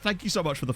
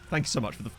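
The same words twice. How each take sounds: First: It is said in his normal voice. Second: It is said in an aggressive gangster voice.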